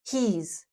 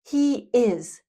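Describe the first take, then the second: First: The words merge into one short syllable. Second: Two separate full words are said.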